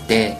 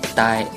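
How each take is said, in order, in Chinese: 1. 这个元音是单元音。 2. 这个元音是滑音，像双元音一样。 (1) "元音是单元音" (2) "不要发成de、呆"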